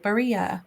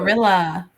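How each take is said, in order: First: It is said with an Italian accent. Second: It is said with a plain American accent.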